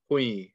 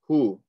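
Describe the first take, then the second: First: The syllable runs into a y sound. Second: The syllable ends on a plain vowel. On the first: "You're joining the ha to the ya" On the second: "we're just going to say hu"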